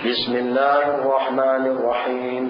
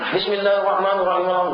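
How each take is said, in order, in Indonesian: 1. Dibacakan dengan kecepatan normal dan stabil. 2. Dibacakan sangat cepat, kata-katanya disambung-sambung. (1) "Kalau kita baca normal" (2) "Kalau yang laju"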